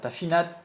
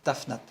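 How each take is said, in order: First: An i-like vowel is heard between f and n. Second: No vowel is heard between f and n. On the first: The speaker calls it wrong. "il n'y a pas de tafinat" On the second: The speaker calls it right. "Il n'y a, a pas de E, c'est tafnat"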